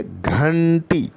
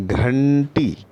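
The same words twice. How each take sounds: First: घंटी drawn out, higher, घ aspirated; drawn-out model word. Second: घंटी stretched very slowly; drawn-out model word. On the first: Teacher repeats घंटी for pupils to copy. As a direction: stretch घंटी once more, brighter. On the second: Teacher stretches घंटी for pupils to copy. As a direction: draw out घंटी for children. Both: Shown as a demonstration. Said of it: "घंटी बोलेंगे तो घा निकलेगा".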